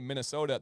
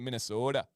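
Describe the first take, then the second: First: The O sound is short and plain. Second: The O sound is long and drawn out. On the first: This is how people further south say it. "we say" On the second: This is how people further north say it. "they draw out the O"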